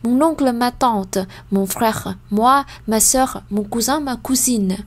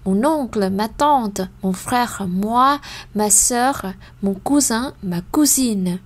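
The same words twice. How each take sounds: First: The list is read at a very fast pace. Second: The list is read at a faster pace. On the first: "Ou encore plus plus vite" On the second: "mais plus rapide"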